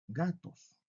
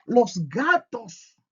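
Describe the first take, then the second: First: Said in the usual way. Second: "Los gatos" lento, agudo y fuerte, marcando "Los"; énfasis en los. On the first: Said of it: "que decir gatos". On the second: Shown as a demonstration. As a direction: remarca "Los" con fuerza y despacio. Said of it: "No es lo mismo que cuando yo digo los gatos". (profesor que contrasta "Los gatos" con énfasis)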